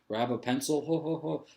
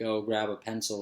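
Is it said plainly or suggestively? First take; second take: suggestively; plainly. First: It is said in a suggestive, innuendo-laden way. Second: It is said in a plain, neutral way.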